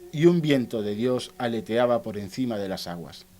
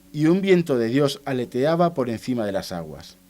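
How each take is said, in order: Both takes have the same delivery.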